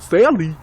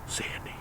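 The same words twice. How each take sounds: First: High, loud mock cry of the name; mock exclamation. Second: Hushed, whispered movie-line impression. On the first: Shown as a demonstration. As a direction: call the name out loud, pitched up. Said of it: "That's how I would have said it. Not Sandy". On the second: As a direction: whisper the name very softly. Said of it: "I'm gonna whisper the whole movie".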